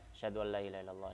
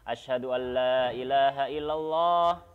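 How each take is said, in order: First: The phrase is said softly and quietly. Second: The phrase is said loudly with raised voice. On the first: "dibaca secara sempurna dengan lirih" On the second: "kemudian baru diangkat suaranya"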